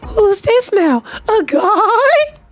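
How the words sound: It is said in a put-on girl voice.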